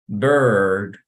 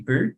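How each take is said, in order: First: The vowel is a long 'er' sound. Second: The vowel is a Spanish-like 'i' sound. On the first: The speaker calls it right. "but you would pronounce bird" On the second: The speaker calls it wrong. "Even though you have the I, you don't say bird"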